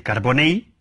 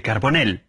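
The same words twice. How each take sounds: First: "carbonell" ending in a y sound, carboney; Valencian-like pronunciation. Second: "carbonell" ending in a plain L, carbonel; Spanish L ending. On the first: Speaker conceding the closer form, Valencian-style ending. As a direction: say "carbonell" with the final ll as y. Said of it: "es más próximo al fonema valenciano". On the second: Speaker giving the less accurate form, plain L. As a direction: say "carbonell" with a single final l. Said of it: "lleva razón en que es más próximo". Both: Shown as a demonstration.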